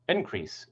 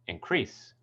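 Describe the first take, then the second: First: The stress is on the first syllable. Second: The stress is on the second syllable. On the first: It is used as a noun. "which is a noun" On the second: It is used as a verb. "which is a verb"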